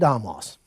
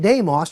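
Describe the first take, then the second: First: It is said in the Doric form, damos. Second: It is said in the Attic form, demos.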